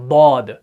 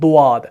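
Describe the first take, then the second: First: It sounds like a thick, heavy d. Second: The lips round, adding a w-like sound. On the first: "वो सीधा दाल का मोटा पढ़ते हैं" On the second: "वो वो जैसी आवाज नहीं निकालनी है, ये होंठों को ऐसे"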